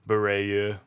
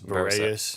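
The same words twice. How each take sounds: First: The name is pronounced in a French way. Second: The name is pronounced in an English way. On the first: "if I was going to pronounce it in the actual French way" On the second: "whose last name I'll mispronounce"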